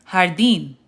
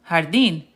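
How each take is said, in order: Both takes have the same delivery.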